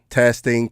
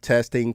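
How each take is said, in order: First: The high frequencies are boosted moderately. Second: The high frequencies are boosted a little. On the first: "Now let's move to the next position" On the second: "we've cranked to the first position on the high frequency part"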